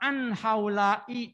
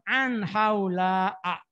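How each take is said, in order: First: The name ends with an 'i' vowel. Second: The name ends with an 'a' vowel. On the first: The speaker calls it wrong. "Oh salah" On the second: The speaker calls it right. "jadi tetap difathahkan"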